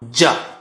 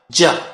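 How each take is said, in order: First: The consonant sounds heavy, from the tongue's middle. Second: The consonant sounds heavy, from the tongue's middle.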